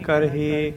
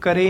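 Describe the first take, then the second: First: The h sound in the middle is pronounced. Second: The h sound in the middle is dropped. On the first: The speaker calls it right. "ਕਰਹੇ ਇਸ ਤਰ੍ਹਾਂ" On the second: The speaker calls it wrong. "ਇਸ ਤਰ੍ਹਾਂ ਇਹਨੂੰ ਕਰੇ ਨਹੀਂ ਕਹਿਣਾ"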